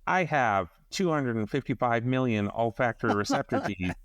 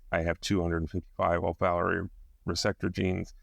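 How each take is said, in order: First: The voice is pitched unusually high. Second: The voice is at its normal pitch. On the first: "once in a really high register" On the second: "in my regular voice"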